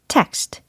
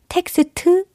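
First: It is one syllable ending in consonants. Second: It has added vowels, sounding like three syllables. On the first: The speaker calls it right. "아니고 text" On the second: The speaker calls it wrong. "텍스트 아니고"

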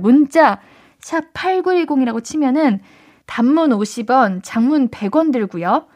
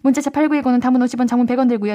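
First: It is read slowly. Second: It is read quickly.

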